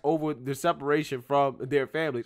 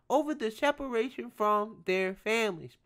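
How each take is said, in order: First: It is read in a plain, ordinary voice. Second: It is read in a mocking, sarcastic voice.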